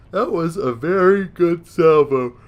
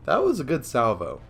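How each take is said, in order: First: "very" leaned on, slow, loud and high; emphatic repeat. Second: Said in the usual way. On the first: Real, not acted. Player admiring his own salvo, stressing "very" loudly and slowly. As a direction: draw out "very good salvo" with big raised emphasis.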